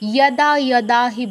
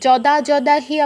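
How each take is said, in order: First: Each 'yada' begins with a y sound. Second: Each 'yada' begins with a j sound. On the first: The speaker calls it right. "এটাকে ইও বলতে হবে, ইয়াদা ইয়াদা হি বলতে হবে" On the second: The speaker calls it wrong. "এটা জ বলা যাবে না, ওই যে যদা যদা হি আমরা সবাই বলি না, ওটা বলা যাবে না"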